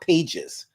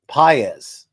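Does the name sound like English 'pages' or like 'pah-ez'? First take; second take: pages; pah-ez. First: It sounds like the English word 'pages'. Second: It sounds like 'pah-ez' with no soft g. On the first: The speaker calls it wrong. "It's not Pages" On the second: The speaker calls it right. "Paez. So say it with me"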